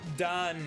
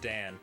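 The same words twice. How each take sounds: First: The vowel is an open Israeli 'a'. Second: The vowel is a plain American 'a'.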